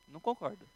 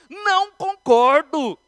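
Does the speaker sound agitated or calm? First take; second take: calm; agitated. First: It is said in a calm, measured voice. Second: It is said in an agitated, heated voice. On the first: The speaker disagrees without hostility. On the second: The speaker is upset by the disagreement.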